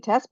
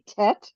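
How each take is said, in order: First: It is said with the Ashkenazi Yiddish-influenced pronunciation. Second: It is said with the Israeli Sephardi pronunciation. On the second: "we in Israel we say Tet"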